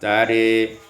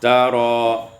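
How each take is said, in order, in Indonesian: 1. Vokal akhirnya condong ke 'e'. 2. Vokal akhirnya adalah 'a' yang jelas dan terbuka. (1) "dan imalah tari" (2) "ada dua wajah fathah yaitu tara"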